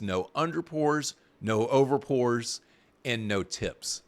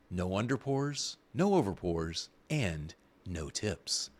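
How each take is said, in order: First: Said in the usual way. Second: Lightly voiced ad announcer, softer; commercial voice. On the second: Host lists robot bartender perks in a mock commercial voice. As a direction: read it like a mock commercial tagline. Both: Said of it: "the commercial voice".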